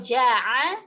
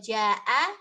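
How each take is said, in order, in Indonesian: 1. Konsonan tengahnya ain faringal. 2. Konsonan tengahnya hamzah. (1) "bedanya pakai ain dan hamzah" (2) "bedanya pakai ain dan hamzah"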